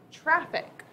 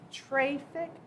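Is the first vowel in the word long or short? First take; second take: short; long. First: The first vowel is a short a sound. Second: The first vowel is a long a sound. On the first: The speaker calls it right. "I'm going to try the short vowel sound. And it will say traffic" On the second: The speaker calls it wrong. "if I coded this incorrectly and I put a macron, this would say traffic"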